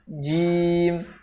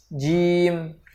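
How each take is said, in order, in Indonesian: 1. Nafas ditahan pada konsonan. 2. Nafas ditahan pada konsonan.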